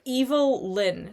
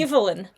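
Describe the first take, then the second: First: The name is said as two separate words. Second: The name is said as one smooth word. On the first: The speaker calls it right. "I pronounce it like that because there is a hyphen" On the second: The speaker calls it wrong.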